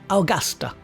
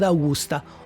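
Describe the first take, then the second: First: It is said with an Australian accent. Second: It is said with an Italian accent.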